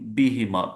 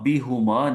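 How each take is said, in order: First: The middle syllable has an 'i' vowel. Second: The middle syllable has a 'u' vowel. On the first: The speaker calls it right. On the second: The speaker calls it wrong. "बी हु माँ नहीं"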